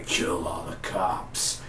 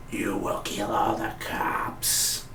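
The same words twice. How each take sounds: First: Breathy, slow whispered command; mock villain whisper, slow; whispered smoker's voice. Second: Slow, quiet smoker's voice; imitating Zoom, slow and soft. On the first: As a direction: breathe the order out in a hoarse whisper. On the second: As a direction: rasp the order out like a heavy smoker. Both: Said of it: "Sound like a smoker's voice".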